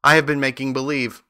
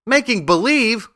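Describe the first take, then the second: First: Understated, meek confession. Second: High, incredulous echo; crying out. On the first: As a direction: admit it meekly, with little force. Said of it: "said the little man meekly". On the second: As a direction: repeat it as a shocked, high-pitched question. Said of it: "cried Dorothy". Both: A narrator's reading.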